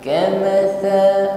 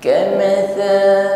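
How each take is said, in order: First: The consonant is a soft, non-hissing th. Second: The same.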